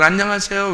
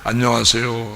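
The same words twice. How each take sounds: First: It is said in a woman's manner. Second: It is said in a man's manner.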